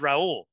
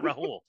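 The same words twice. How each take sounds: First: The middle H is silent. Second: The middle H is clearly sounded. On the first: "Silent. No, your name is Rahul" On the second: "The H is not silent"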